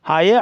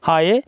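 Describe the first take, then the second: Both takes have the same delivery.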